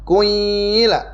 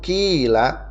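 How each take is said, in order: First: The first vowel is rounded, moving from u to i. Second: The first vowel is a plain unrounded i. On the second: "seperti biasa yang kita sering baca"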